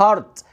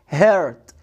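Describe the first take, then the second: First: The vowel sounds like the 'ah' in 'heart'. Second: The vowel sounds like the 'er' in 'her'. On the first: The speaker calls it wrong. "ما اسمهاش هارت" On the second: The speaker calls it right. "اسمها هيرت"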